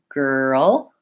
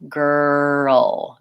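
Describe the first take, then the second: First: It is quicker, with the r and l joined. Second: It is slow, gliding from the r into the l. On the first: "then I can bring those closer together" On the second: "I try just doing a tight grr and then sliding into my ul"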